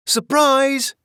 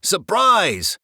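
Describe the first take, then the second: First: High, loud surprise yell. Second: Loud hollered surprise; hollering. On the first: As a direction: shout it out gleefully. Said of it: "yelled Duchess and the kittens". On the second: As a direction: holler it like a band. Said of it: "hollered Scat Cat and the band". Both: A narrator's reading.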